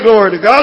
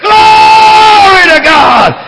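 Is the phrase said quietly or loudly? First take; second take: quietly; loudly. First: The phrase is said quietly and with little energy. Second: The phrase is shouted loudly and high with energy. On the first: The speaker calls it wrong. "don't say glory to God" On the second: The speaker calls it right. "Get it up high. Make it large"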